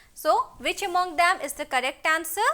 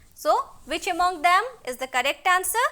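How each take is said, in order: The two takes are said the same way.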